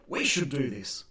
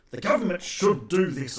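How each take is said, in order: First: "should" leaned on, falling; "We should do this" with weight on "should"; stress on should. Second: Said in the usual way. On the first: Shown as a demonstration. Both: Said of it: "It should be".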